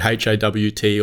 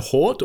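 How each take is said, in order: First: It is spelled out letter by letter. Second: It is said as a single word. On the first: The speaker calls it wrong. "use it as the acronym and say" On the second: The speaker calls it right. "Is it acceptable for me to say Vought and Hort"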